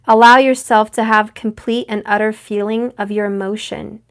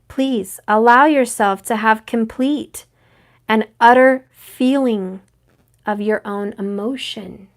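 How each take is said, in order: First: It is said at normal speed. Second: It is said very slowly.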